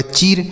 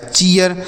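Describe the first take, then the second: First: "चीर" as one syllable with a long ee; "चीर" with no glide after the ee; wrong long-ee reading. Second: "चीयर" in two syllables, chee-yar; correct ee-a glide. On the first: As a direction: say "चीर" with ee running straight into r. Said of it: "इस तरीके से आपको इसे नहीं पढ़ना है". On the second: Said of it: "double ई का उच्चारण ई हो गया". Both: Shown as a demonstration.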